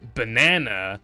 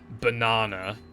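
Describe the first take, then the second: First: It is said in a non-British accent. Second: It is said in a British accent. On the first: The speaker calls it right. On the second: The speaker calls it wrong.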